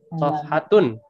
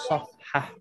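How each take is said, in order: First: The word ends with a full -tun syllable. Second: The word ends clipped, without the -tun syllable. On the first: This is the full form used in writing. "kalau ditulis" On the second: This is the everyday spoken form. "kalau lagi bercakap biasanya ujungnya tidak dibaca"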